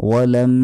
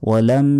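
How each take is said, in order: The two takes are said the same way.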